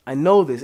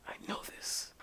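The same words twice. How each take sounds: First: Said in the usual way. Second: Whispered to himself; whispered recall. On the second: Real, not acted. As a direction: breathe it as a private thought. Muttering while recalling.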